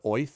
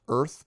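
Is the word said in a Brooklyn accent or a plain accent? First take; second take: Brooklyn; plain. First: The word is said in a Brooklyn accent. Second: The word is said in a plain accent. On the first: The speaker calls it right. "as if you were saying it with a Brooklyn accent" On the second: The speaker calls it wrong. "not Earth"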